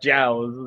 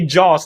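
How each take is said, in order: First: The vowel sounds like 'ow'. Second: The vowel sounds like 'aw'. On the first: The speaker calls it wrong. "not Jows" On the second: The speaker calls it right. "You say Jaws"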